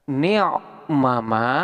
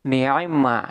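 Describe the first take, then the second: First: Both 'ma' syllables are pronounced separately. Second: The two 'ma' syllables merge into one doubled sound. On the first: "bisa dibaca dengan ni'mama" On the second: "ma yang pertama ini diidghamkan kepada ma yang kedua"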